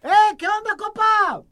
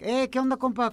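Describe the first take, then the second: First: It is said loudly, almost shouting. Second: It is said at a normal volume.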